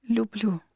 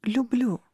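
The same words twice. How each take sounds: First: Reluctant, understated declaration; forced out. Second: Drawn-out, insistent "I love you"; forced declaration. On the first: Girl lying to the incubus about love, mildly strained. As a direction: squeeze the word out against your will. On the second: Girl making herself convince the incubus, earnest but forced. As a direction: declare it with more conviction, still effortful. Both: A narrator's reading. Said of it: "выдавила через силу".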